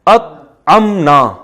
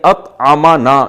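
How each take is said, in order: First: No vowel follows the m sound. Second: A short vowel follows the m sound. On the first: The one whom we fed. "मीम पे पे जबर के बजाय जज्म कर देना" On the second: The one who fed us. "जिसने हमें खिलाया"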